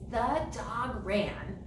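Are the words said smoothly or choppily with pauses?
smoothly. The words flow together without pauses. The speaker calls it right. "connect them together so they run smooth"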